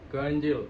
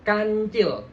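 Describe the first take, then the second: First: "kancil" low, with a weak K and closed vowel; K tidak terasa. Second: "kancil" with a firm K and open A; kancil jelas. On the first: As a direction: mumble the start of "kancil". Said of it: "K-nya itu nggak kerasa". ("kancil" dengan K kurang terasa) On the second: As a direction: articulate "kancil" strongly. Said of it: "pasti jelas". ("kancil" dengan K jelas) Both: Shown as a demonstration.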